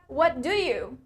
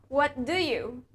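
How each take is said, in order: Both takes have the same delivery.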